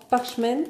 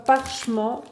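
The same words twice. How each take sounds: First: "parchment" retried the English way, PARCH-ment; English pronunciation attempt. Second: "parchement" said the French way, par-sheh-MAHN; unsure pronunciation. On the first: Correcting herself to viewers, tentative English pronunciation. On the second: Naming a ribbon colour to viewers, French-style pronunciation. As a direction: reads "parchement" like a French word. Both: Real, not acted. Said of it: "je sais pas comment on prononce".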